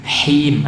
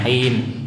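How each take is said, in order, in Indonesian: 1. Bunyi h-nya berhembus, ada aliran udara yang terdengar. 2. Bunyi h-nya kering, tanpa aliran udara. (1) "Him ada udara" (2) "jangan kering, jangan him"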